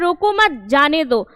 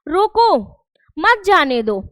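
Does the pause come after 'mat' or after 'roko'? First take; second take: after mat; after roko. First: There is a pause right after mat. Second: There is a pause right after roko. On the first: Do not stop him; let him go. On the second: Stop him and do not let him go.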